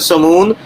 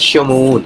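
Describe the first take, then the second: First: The name begins with a plain 's' sound. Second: The name begins with an 'sh' sound. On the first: This is the Arabic form of the name. "अरबी के अंदर समून" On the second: This is the Hebrew form of the name. "अबरानी के अंदर शमून"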